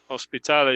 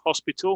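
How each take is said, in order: First: The word is pronounced with Spanish sounds. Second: The word is pronounced with English sounds. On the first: "es pronunciación en español" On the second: "en inglés es hospital"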